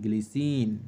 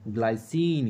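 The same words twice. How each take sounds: First: ग्लिसिन with a short "gli" instead of "glai"; Hindi pronunciation. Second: ग्लाइसिन said with "glai", rhyming with eye; English pronunciation. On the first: Teacher offering students the other name, ग्लिसिन with a short Hindi "gli". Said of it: "Hindi में अपन ग्लिसिन भी बोल सकते हैं". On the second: Chemistry teacher naming the compound for students, ग्लाइसिन with an English "glai". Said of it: "ग्लाइसिन English में". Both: Shown as a demonstration.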